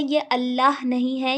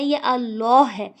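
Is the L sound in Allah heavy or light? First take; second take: light; heavy. First: The L sound is light and thin. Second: The L sound is heavy and full. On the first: The speaker calls it wrong. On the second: The speaker calls it right. "अल्लाह को मोटा पढ़ेंगे"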